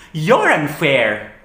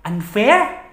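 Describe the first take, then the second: First: Loud, slow, falling retort; angry accusation. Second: High, rising incredulous question; indignant echo. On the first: Turning the accusation on partner, angrily accusing. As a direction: hurl it back, drawn out and emphatic. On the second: Echoing partner's accusation, in indignant disbelief. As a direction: throw the word back as an offended question. Throws partner's word back. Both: Acted.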